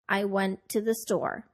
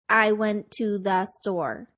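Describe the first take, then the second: First: 'To the' is said weak and short. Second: Every word is said fully and evenly. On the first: The speaker calls it right. "we stress our content words and de-stress our function words" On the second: The speaker calls it wrong. "we would not say"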